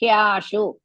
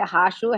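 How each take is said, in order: First: The h is followed by a y sound. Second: The h is followed directly by the vowel. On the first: The speaker calls it right. "Hya, Ha and Ya together" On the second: The speaker calls it wrong. "Don't say Hashu"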